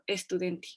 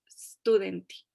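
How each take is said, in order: First: An extra e sound comes before the st. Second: The word starts directly with the st sound. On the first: The speaker calls it wrong. "terminamos diciendo estudianti" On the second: The speaker calls it right. "Tratemos de quitar esa E"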